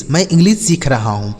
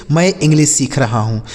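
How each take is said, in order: Both takes have the same delivery.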